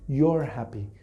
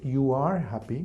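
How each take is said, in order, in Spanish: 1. 'You are' se reduce a una sola sílaba. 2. Ambas palabras 'you are' se dicen completas. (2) "en la forma larga"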